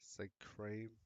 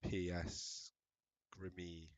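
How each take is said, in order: First: The name begins without any P sound. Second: The name begins with a sounded P. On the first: "Is it a silent P? I imagine you don't say the P" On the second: "I just absolutely butchered your name"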